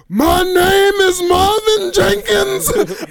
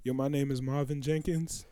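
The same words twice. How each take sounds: First: Slow, much higher and louder anguished cry; crying wail. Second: Quiet, flat-toned, much softer; calm intro. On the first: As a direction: wail the name out like breaking down. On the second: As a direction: say it plainly and low in volume. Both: Retold or imitated. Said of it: "He said".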